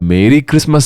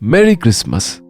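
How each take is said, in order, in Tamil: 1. முதல் உயிரெழுத்து நீளம், 'Mary' போல. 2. முதல் உயிரெழுத்து குறுகியது, 'merry' போல. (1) "மேரி கிறிஸ்மஸ் அல்ல"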